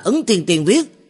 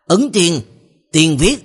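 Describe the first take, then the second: First: There is a break after Tiên, before viết. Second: There is a break between Thiên and Tiên. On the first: A single immortal by that name wrote it. The speaker calls it wrong. "Ngươi đọc sai rồi, ngươi đọc là" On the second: People of a sect wrote it. The speaker calls it right. "thực tế cách đọc đúng là"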